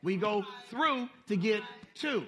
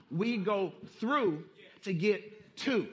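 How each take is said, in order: First: "through" hit, words spaced slowly; emphatic repeat. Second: Slow emphatic chant. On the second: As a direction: chant it slowly, word by word. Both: Shown as a demonstration.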